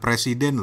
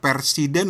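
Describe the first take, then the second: First: The word begins with the sounds 'pre'. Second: The word begins with the sounds 'per'. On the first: This is the ordinary word, not the title. The speaker calls it wrong. "bukan presiden loh" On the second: This is the book's actual title. The speaker calls it right. "dia bilangnya presiden loh"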